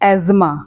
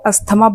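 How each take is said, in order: First: No 't' sound is heard in the middle. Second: A 't' sound is heard in the middle. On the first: This is the correct pronunciation. The speaker calls it right. "इसका सही pronunciation है एज़मा" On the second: This is how most people say it. The speaker calls it wrong. "Mostly लोग इसको अस्थमा बोलते हैं"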